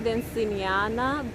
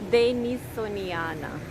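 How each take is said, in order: First: The name is said as Dan-ci-ni-a-na. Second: The name is said as De-ni-so-ni-a-na. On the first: The speaker calls it wrong. "I always say Danciniana, but I mispronounce it" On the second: The speaker calls it right. "I think. Something like that"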